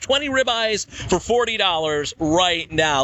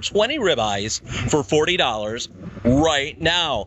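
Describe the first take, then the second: First: It is said at a normal pace. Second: It is said a little slower.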